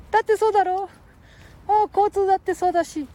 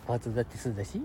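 First: Put-on high squeaky boy voice; cheeky little kid, much higher; Ken-chan voice. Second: Said in the usual way.

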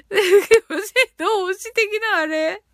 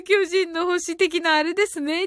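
First: Slow, laughing, puzzled question; drawn-out amused repeat; laughing disbelief. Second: Said in the usual way. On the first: Real, not acted.

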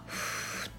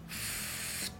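First: ふっ as a soft voiceless blow through rounded lips; pure puff of breath on ふっ, lips rounded; Japanese fu. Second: ふっ as a long English F, air leaking past teeth on lower lip; English F sound. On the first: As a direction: say ふっ as if really blowing. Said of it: "日本語のふは". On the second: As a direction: say ふっ as a leaky, voiceless F hiss. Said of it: "Fの音は". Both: Shown as a demonstration.

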